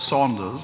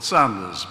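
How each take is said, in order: First: The first vowel sounds like the vowel in 'saw'. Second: The first vowel sounds like the vowel in 'sand'. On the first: The speaker calls it wrong. "managed to mispronounce my own name. I'm not called Saunders" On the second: The speaker calls it right. "I'm called Sanders"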